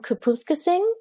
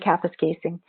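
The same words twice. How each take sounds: First: The town name is pronounced in a nonstandard way. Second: The town name is pronounced in the standard way. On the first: The speaker calls it wrong. "Am I saying that correctly? No, I know. I just like saying it the other way" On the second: The speaker calls it right. "It's really Kapuskasing"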